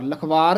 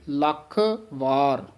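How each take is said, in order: First: The two words are run together as one. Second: The first word is pressed and the second is separate. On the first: The speaker calls it wrong. "ਲਖਵਾਰ ਨਹੀਂ ਕਹਿਣਾ" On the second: The speaker calls it right. "ਲੱਖ ਥੋੜਾ ਜਿਹਾ ਦੱਬ ਕੇ ਬੋਲਣਾ ਹੈ, ... ਵਾਰ ਵੱਖਰਾ ਬੋਲਣਾ ਹੈ"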